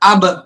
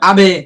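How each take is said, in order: First: The final b is closed plainly without a bounce. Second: The final b is released with an echoing bounce. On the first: The speaker calls it right. "স্বাভাবিক ভাবে বলতে হবে" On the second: The speaker calls it wrong. "এই যদি এরকম বলি তাহলে কলকলা হয়ে যাবে, এরকম বলা যাবে না"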